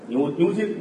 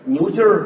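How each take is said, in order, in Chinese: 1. 这个词结尾没有儿化音。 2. 这个词结尾有儿化音。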